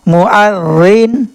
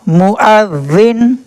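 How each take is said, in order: No difference in how they are said.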